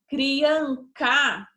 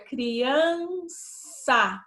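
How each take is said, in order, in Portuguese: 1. A consoante antes da última vogal tem som de K. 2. A consoante antes da última vogal tem som de S. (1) "ficar com o som K" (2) "ele fica com o som de S"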